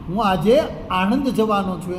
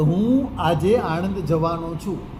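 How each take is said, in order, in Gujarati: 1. ત્રીજો શબ્દ પર ભાર છે. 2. પહેલો શબ્દ પર ભાર છે. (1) "કાલે રાજકોટ ગયો હતો... પણ આજે આણંદ જઈશ" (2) "હું પર ભાર આપું તો એનો અર્થ છે કે હું જ જવાનો છું"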